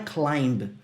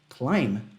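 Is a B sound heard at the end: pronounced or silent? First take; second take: pronounced; silent. First: The final B sound is pronounced. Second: The final B sound is silent. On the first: The speaker calls it wrong. "não é climb" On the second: The speaker calls it right. "é climb ... então o B some"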